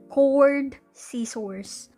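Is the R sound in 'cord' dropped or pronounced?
pronounced. The R in 'cord' is pronounced strongly. The listener did not understand it. The speaker calls it wrong. "it's my American English that I'm pronouncing the R, ... like really hard"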